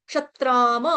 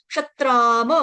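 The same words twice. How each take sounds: No difference in how they are said.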